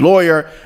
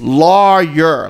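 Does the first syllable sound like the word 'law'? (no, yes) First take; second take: no; yes. First: The first syllable does not sound like 'law'. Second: The first syllable sounds like the word 'law'. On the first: The speaker calls it wrong. "That's not how you pronounce that word" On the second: The speaker calls it right. "like law, L A W, yer"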